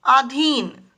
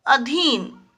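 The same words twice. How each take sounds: First: अधीन with long opening vowel, "aadheen"; wrong form. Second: अधीन with short opening "a"; correct form. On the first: Teacher reads out the error to children, mispronounced. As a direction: say अधीन as "AA-dheen". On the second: Teacher gives children the right word, carefully pronounced. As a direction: say अधीन as "a-DHEEN", first vowel short. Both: Shown as a demonstration. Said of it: "अधीन नहीं".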